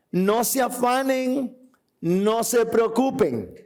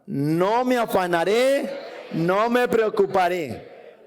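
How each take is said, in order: First: Slow, deliberate verse reading; slow emphatic quote. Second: Slow, deliberate first-person vow; first person declaration. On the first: Preacher to congregation, slow and deliberate. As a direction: let each word land slowly. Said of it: "¿Puedes repetir eso?". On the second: Preacher models the vow for the congregation, slow and firm. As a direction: say it slowly as your own promise. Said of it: "Ahora dígalo en primera persona". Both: Shown as a demonstration.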